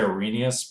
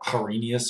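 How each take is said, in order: First: The name is said with soft, smooth consonants. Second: The name is said with harsh, hard consonants. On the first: "I would say Arrhenius" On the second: "something much more um, harsh"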